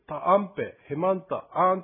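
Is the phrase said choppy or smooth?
choppy. The syllables are separated one by one. The speaker calls it wrong. "ブツブツブツという感じがするので"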